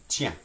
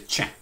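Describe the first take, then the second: First: The word starts with a plain t sound. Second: The word starts with a ch sound. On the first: "simply is pronounced tiens" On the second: "in Louisiana French, you say tiens"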